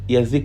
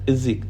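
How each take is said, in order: First: The first vowel is a full ya sound. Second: The first vowel is a reduced yi sound. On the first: The speaker calls it wrong. "ما بقولش يزيك يزيك ... لا ده غلط" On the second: The speaker calls it right. "بقول الزيك الزيك"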